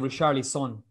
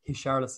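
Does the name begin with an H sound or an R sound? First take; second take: R sound; H sound. First: The first sound is an R. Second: The first sound is like an H. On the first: "he was like" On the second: "in Brazilian Portuguese, the R is like H"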